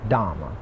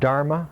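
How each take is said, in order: First: No r sound is heard before the m. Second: An r sound is heard before the m. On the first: "is pronounced in Pali Dhamma" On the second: "In Sanskrit the word dharma"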